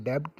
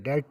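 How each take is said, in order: First: "डेब्ट" with b sounded before the t; wrong pronunciation. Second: "डेट" going from vowel straight to t; silent b. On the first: Teacher showing students the wrong reading, b sounded in "डेब्ट". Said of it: "इधर डेब्ट नहीं पढ़ेंगे". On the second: Teacher showing students the right reading, silent b in "डेट". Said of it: "डेट पढ़ेंगे". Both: Shown as a demonstration.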